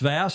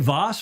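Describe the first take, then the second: First: The vowel rhymes with 'ass'. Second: The vowel rhymes with 'boss'. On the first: The speaker calls it right. "It's Vass, like your derriere" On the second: The speaker calls it wrong. "don't call me Voss"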